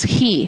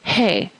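First: The vowel is a long ee sound. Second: The vowel is an ay sound. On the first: The speaker calls it right. "would need to be pronounced as "he,"" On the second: The speaker calls it wrong. "not "hey.""

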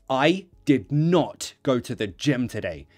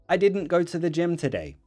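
First: The words 'did not' are said in full as two words. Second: The words 'did not' are shortened to 'didn't'. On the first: The speaker sounds strong or aggressive. The speaker calls it wrong. "If you don't, it sounds more aggressive or stronger" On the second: The speaker sounds relaxed and casual. The speaker calls it right. "Natural, right? Casual"

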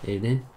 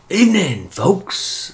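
First: It is said flatly, without much energy. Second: It is said with more passion and energy.

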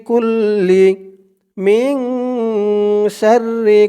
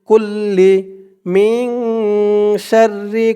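The two takes are said the same way.

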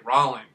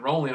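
First: The first vowel sounds like the word raw. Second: The first vowel sounds like the word roll. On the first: "My last name is [name], so instead of saying rolling, I say rolling" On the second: "instead of saying rolling"

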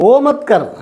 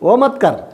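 First: The first word is said as 'o'. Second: The same.

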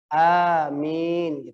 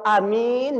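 First: Both the first and second vowels are lengthened. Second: Only the second vowel is lengthened. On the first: It means hear and grant my prayer. The speaker calls it right. "A-nya panjang, Mi-nya panjang" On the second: It means safe. The speaker calls it wrong. "Mi-nya yang dipanjangin, itu artinya aman"

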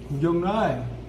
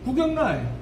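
First: The stress falls late and the word is drawn out slowly. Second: The stress falls on the first part of the word. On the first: This is the South Gyeongsang way of saying it. "경남은요 뒤로 빼요. 이게 느려요" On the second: This is the Daegu and North Gyeongsang way of saying it. "대구 경북 강세 앞에 줘요"

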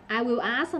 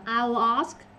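First: Will is said as a full separate word. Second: Will is shortened and merged into I. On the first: "I will ask đọc là" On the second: "đọc là I'll ask"

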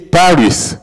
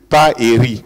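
First: The final s is sounded, English style. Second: The final s is silent, French style. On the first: "Lui, d'expression anglaise, il dit Paris" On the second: "moi, d'expression française, je dis Paris"

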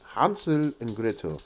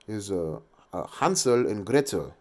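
First: It is said in a put-on German accent. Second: It is said in a plain English accent.

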